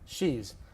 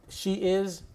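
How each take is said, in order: First: It is said as one contracted syllable. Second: It is said as two separate full words.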